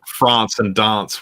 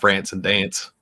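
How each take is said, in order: First: It is said in a South Australian accent. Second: It is said in a non-South Australian accent. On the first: "we say things like" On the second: "where you guys say"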